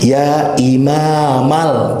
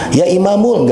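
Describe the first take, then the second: First: The word ends in the vowel a. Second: The word ends in the vowel u. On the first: The speaker calls it right. "kedah fathah imamal" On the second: The speaker calls it wrong. "dengan domah vokal u"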